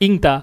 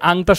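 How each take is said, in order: First: The first vowel is a close 'i' sound. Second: The first vowel is an open 'a' sound. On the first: This is the regional dialect form of the word. "আঞ্চলিক ভাষায় বলা হয় হচ্ছে গিয়া ইংতা" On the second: This is the standard form of the word. "এই যে আংতা শব্দটাকে"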